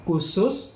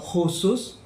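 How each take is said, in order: First: It begins with a plain k sound. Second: It begins with a throaty kh sound.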